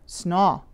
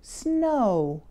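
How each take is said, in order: First: The vowel is a short, open 'ah' sound. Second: The vowel is a long rounded 'oh' ending in w. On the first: The speaker calls it wrong. "shorten it or change it to more of an ah sound" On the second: The speaker calls it right. "round your lips and make a quick w sound at the end"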